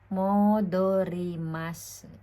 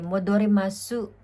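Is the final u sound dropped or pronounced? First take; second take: dropped; pronounced. First: The final u sound is dropped. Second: The final u sound is clearly pronounced. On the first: "nagiging parang silent U" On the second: "Yan po talaga yan"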